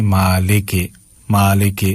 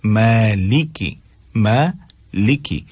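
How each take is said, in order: First: "مالک" as maa-lay-kay, lower in pitch; wrong ay vowel. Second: "مالکی" very slow, as maa-lee-kee; correct ee vowel. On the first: Teacher showing local learners' mistake, wrong ay vowel. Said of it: "یہ غلط ہے". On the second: Teacher correcting learners' vowels, slow ee reading. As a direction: stretch "مالکی" with clear ee sounds. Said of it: "اس کو ای کی آواز نکالیں". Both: Shown as a demonstration.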